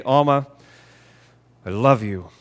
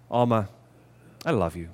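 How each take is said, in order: First: Harder, less tender declaration; affectionate words in an unconvincing tone; unloving tone. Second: Soft, low, tender declaration; hushed, heartfelt affection. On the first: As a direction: say it without the softness, matter-of-fact. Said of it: "very different meaning just because of the way". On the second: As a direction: say it gently and lovingly, voice dropped. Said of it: "the way that we say things". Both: Shown as a demonstration.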